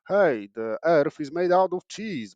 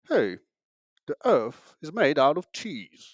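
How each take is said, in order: First: It is said in the speaker's usual accent. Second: It is said in a put-on British accent. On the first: The claim sounds as silly as it is. "You can say something like" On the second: The same claim sounds clever. "people are like, "Hmm, this guy is talking really smart.""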